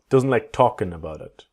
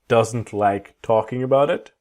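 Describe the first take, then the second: First: The G at the end of talking is dropped. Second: The G at the end of talking is pronounced.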